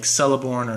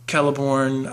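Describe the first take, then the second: First: It begins with an S sound. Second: It begins with a K sound. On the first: The speaker calls it wrong. "I pronounced them like" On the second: The speaker calls it right. "every name that Tolkien uh, has configured that begins with a C has the K sound"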